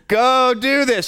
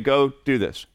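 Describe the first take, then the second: First: It is said with a clearly raised voice. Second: It is said at normal loudness. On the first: The parent is now serious. "And then you raise your voice" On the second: This is the first request. "we'll say it once"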